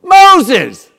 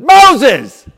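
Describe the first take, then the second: No difference in how they are said.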